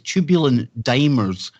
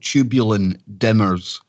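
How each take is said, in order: First: The first syllable of the last word sounds like 'dime'. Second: The first syllable of the last word sounds like 'dim'. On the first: The speaker calls it right. "literally pronounced like a dime" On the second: The speaker calls it wrong. "I need to dim my thoughts from time to time"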